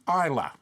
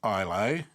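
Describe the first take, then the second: First: The word is said without the final 'ay' sound. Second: The word is said as it is spelled. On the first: The speaker calls it right. "It should be Isla" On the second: The speaker calls it wrong. "I say it how it looks"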